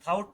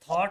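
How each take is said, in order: First: The vowel glides like 'ow' in 'out'. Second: The vowel is a plain 'aw' as in 'law'. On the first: The speaker calls it wrong. "थाउट नहीं होगा" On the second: The speaker calls it right. "थॉट होगा"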